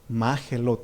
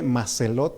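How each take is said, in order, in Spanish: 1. La consonante del medio es un sonido parecido a la g. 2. La consonante del medio es un sonido s. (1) "pero es Magelot, o sea, más o menos así se pronuncia" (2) "se nos escribe Maselot"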